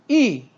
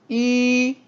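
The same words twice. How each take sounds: First: The pitch falls sharply from high to low. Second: The pitch stays high and level. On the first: "사성" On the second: "일성"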